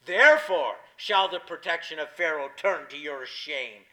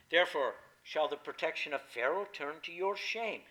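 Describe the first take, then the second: First: "Therefore" hit hard and loud, the rest weighted; with more emphasis. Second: Said in the usual way. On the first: Shown as a demonstration. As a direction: lean into "Therefore" and press each word home. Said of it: "with more emphasis". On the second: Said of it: "I should have read it in, with more emphasis".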